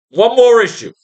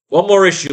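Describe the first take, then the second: First: Higher and louder, stressing more; angry outburst. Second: Said in the usual way. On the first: Real, not acted. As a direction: bark it out, fed up with the comics. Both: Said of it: "I'm getting more pissed".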